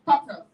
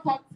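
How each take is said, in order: First: "tortoise" as TOR-tus; loud model "tortoise" with a short ending; correct pronunciation. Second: "tortoise" in the mistaken way, ending in toys; wrong pronunciation. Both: Shown as a demonstration. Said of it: "Not tortoise".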